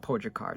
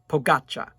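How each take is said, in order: First: The name ends with a hard 'kar' sound. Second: The name ends with a soft 'cha' sound. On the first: The speaker calls it wrong. "I think I was saying Pogacar" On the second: The speaker calls it right. "helped me with the pronunciation"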